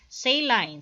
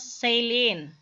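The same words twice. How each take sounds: First: It is said with a British pronunciation. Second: It is said with an American pronunciation. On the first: "Sa British is saline" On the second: "sa English or sa U S nga kanang pronunciation"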